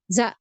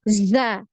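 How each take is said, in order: First: The z is brief, going straight into the vowel. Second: The z buzzes audibly before the vowel starts. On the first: The speaker calls it wrong. "Jadi bukan cuma za" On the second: The speaker calls it right. "ada aliran suaranya"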